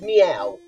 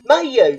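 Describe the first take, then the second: First: The name is said like a cat's meow. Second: The name is said with two syllables, ma-yu. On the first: This is the official pronunciation. "Now it's pronounced meow" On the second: This is the family's own nickname. "I call it Mayu for its sentimental value with my brother"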